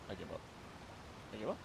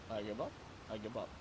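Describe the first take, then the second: No difference in how they are said.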